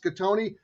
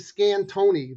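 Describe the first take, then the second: First: No n sound comes before the t. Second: An n sound comes before the t. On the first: The speaker calls it right. "There's no N in my name, it's" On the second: The speaker calls it wrong. "people calling me"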